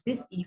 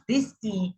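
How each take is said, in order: First: "E" kept brief, a short vowel; shorter E. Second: "E" held as a long vowel; longer E. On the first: Teacher showing vowel length to the class, shorter E. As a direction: keep the "E" in "this E" short. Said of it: "for a shorter duration". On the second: Teacher showing vowel length to the class, longer E. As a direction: stretch the "E" in "this E". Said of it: "for a longer duration". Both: Shown as a demonstration.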